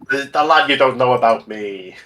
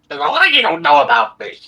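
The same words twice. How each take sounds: First: It is said in the speaker's normal voice. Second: It is said in a put-on Toad voice.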